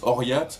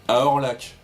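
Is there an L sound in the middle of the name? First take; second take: no; yes. First: It is said with a Y-like sound, no L. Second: It is said with an L sound, as spelled. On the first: This is how it is actually pronounced. The speaker calls it right. "mais ça, ça se prononce Oriat" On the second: This is how the spelling reads. The speaker calls it wrong. "ça se lit à Orlac"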